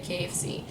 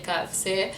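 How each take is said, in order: First: K F C with English letter names; non-French pronunciation. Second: K F C with French K, "kah"; French accent. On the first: Showing those not French educated, K F C with English "kay". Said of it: "can't speak French or not French educated". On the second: Showing French-accented Lebanese speakers, K F C in French accent. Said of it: "they have that French accent". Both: Shown as a demonstration.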